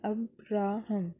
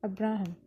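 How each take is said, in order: First: "Abraham" slowly split as अब-रा-हम; three measured beats: अब, रा, हम; syllable by syllable. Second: Said in the usual way. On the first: Shown as a demonstration. (Abraham को तीन टुकड़ों में, धीरे) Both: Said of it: "इसमें तीन सिलेबल्स हैं".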